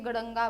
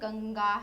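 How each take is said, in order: First: A flapped r-like sound comes before the nasal. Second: A plain nasal sound comes before the g. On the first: The speaker calls it wrong. "तो ये गड़ंगा बन जाता है ना, but ये गड़ंगा नहीं है" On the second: The speaker calls it right. "गंगा है"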